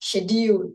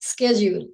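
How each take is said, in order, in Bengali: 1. শব্দটি 'sh' ধ্বনি দিয়ে শুরু হয়। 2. শব্দটি 'sk' ধ্বনি দিয়ে শুরু হয়। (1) "আমরা যেটা সাধারণত আমরা যেটা বলি" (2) "আমেরিকানরা বলে"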